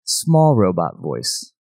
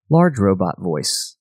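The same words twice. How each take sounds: First: Slow, drawn-out little robot; lightly voiced small robot, words stretched. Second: Slow, drawn-out big robot; lightly voiced large robot, words stretched. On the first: Host demoing mixer voices to co-host, small robot voice. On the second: Host demoing mixer voices to co-host, large robot voice. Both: Shown as a demonstration. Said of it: "voices to it".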